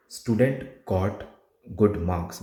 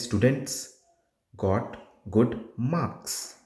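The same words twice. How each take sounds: First: Slow "Student got good marks" with no S ending "Student"; dropped final S. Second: Slow, spaced "Students got good marks" with clear S ending "Students" and "marks"; stressed final S. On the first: Tutor shows the student's error that loses marks, final S dropped. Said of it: "if you don't stress on that S". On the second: Tutor gives the correct exam sentence, final S stressed. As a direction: hit the S at the end of "Students" and "marks". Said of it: "Now, the sentence is". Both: Shown as a demonstration.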